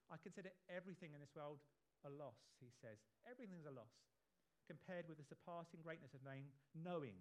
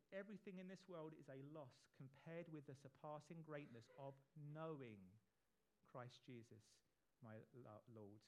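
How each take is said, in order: First: Fast, rushed reading of the verse; too quick. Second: Measured, slower re-reading of the verse; slower again. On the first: Preacher reading Paul's words, rushing through them. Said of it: "I said that too quickly". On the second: Preacher rereads Paul's words properly, slower and measured. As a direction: take it again at an unhurried pace. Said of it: "I'll say it again". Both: Shown as a demonstration.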